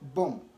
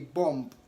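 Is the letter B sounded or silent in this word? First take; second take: silent; sounded. First: The final B sound is silent. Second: The final B sound is pronounced. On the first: The speaker calls it right. "rather bomb" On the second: The speaker calls it wrong. "Don't say bomb"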